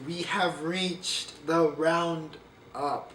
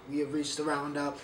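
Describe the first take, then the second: First: Slow, dramatic announcement; slow-motion host reveal; drawn out slowly. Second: Said in the usual way. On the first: Shown as a demonstration. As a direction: stretch every word like a showman.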